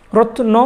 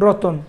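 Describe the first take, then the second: First: রত্ন with the অ after ন, no vowel between ত and ন; original form. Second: Said in the usual way. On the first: Shown as a demonstration. Teacher contrasting the old form for students, clustered. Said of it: "রত্ন অটা পরে ছিল". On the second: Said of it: "অটাকে নিয়ে আসছি তয়ের পরে".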